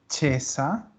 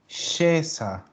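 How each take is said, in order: First: The word begins with a 'ch' sound. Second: The word begins with an 'sh' sound. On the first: The speaker calls it wrong. "Ojo que no es chesa" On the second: The speaker calls it right. "es scesa"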